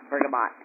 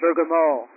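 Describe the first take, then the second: First: The word is said with an English pronunciation. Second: The word is said with a French pronunciation. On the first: The speaker calls it wrong. "not bergamot" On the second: The speaker calls it right. "that's the French way you say it"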